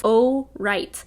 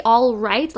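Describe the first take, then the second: First: "oh right", L dropped, tune rising; British way. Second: "all right" with a clear L sound; wrong way. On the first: Showing how English people greet, "oh right" without an L. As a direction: drop the L: "oh right". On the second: Teaching Americans the wrong way, "all right" with the L. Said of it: "you don't say the L". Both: Shown as a demonstration.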